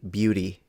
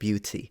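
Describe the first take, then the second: First: The middle t sounds like a soft d. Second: The middle t is a clear t sound. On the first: "when you say beauty" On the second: "instead of beauty"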